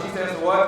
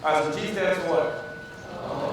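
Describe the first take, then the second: First: Asked again with more volume; louder. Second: Said in the usual way. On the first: Shown as a demonstration. Coach repeating the question to the crowd, louder. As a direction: push the question out louder to the room.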